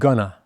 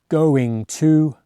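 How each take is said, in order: First: The words merge into one short weak form. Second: Both words are said fully with clear vowels. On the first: "It's easier because there are no strong vowel sounds in it" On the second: "Compare going to"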